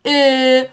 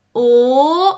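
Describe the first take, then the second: First: «ا» as a long, loud fronted ö; Turkish Ö vowel. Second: «او» as a long, loud rounded back o; plain O vowel. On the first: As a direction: round the lips on a front e for «ا». («ا» کشیده با صدای ö ترکی) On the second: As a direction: hold a clear back o on «او». («او» کشیده و بلند مثل o انگلیسی) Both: Shown as a demonstration. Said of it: "این حرف رو دقت کنید تلفظشو".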